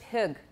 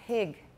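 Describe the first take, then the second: First: The vowel is a plain short 'i'. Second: The vowel is raised toward 'ee'. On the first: "if I'm following the vowel strictly, it would be pig. And some people do say pig" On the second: "but I say pig"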